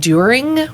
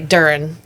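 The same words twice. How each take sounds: First: The word has a standard, non-southern pronunciation. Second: The word has a southern-sounding pronunciation. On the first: This is the expected pronunciation. The speaker calls it right. "instead of saying during" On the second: This is the speaker's own habitual pronunciation. The speaker calls it wrong. "or you say during"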